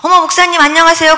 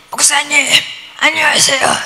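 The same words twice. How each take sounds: First: Said in the usual way. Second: Imitating a pastor who has lost their voice; 목이 완전히 쉰 목소리. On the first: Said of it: "목소리가 왜 그러세요". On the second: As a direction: croak out a greeting with a worn-out voice. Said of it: "목소리가 완전히 간 거예요". (완전히 쉰 목소리 흉내)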